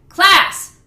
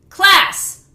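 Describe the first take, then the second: No difference in how they are said.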